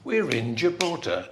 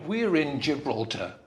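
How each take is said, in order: First: The opening is said as one contracted word. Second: The same.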